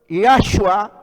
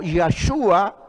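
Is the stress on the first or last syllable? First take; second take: first; last. First: The stress is on the first syllable. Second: The stress is on the last syllable. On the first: "algunos le colocan la tilde empezando" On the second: "otros le colocan la tilde finalizando"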